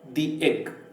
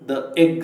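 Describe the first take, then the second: First: 'The' is said with a long 'ee' vowel. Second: 'The' is said with a short 'uh' vowel. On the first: "ದಿ egg ಅಂತ ಸಾಮಾನ್ಯವಾಗಿ ಹೇಳ್ತೇವೆ" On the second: "ದ egg ಅಂತ ಹೇಳಿದ್ರು ತಪ್ಪಲ್ಲ"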